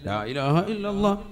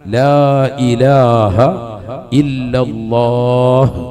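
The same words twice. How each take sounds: First: It is said quickly with a clipped ending. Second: It is said slowly with a drawn-out ending.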